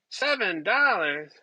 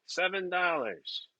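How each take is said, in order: First: The price echoed back in mock disbelief; half-laughing outrage at the price; incredulous repeat. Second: Said in the usual way. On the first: Repeating the egg price in mock disbelief, incredulous.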